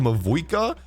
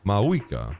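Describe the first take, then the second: First: The name is said with a V sound. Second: The name is said without a V sound. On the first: "Have I been saying" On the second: "if the V is silent"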